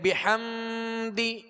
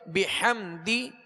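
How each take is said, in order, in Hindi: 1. म नाक की गुनगुनाहट के साथ बोला जाता है। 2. म नाक की गुनगुनाहट के बिना, छोटा बोला जाता है। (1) "इसमें गुन्ना भी नहीं करेंगे, यानी बिहम्दी इस तरह नहीं पढ़ेंगे" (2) "बल्कि बिहम्दी"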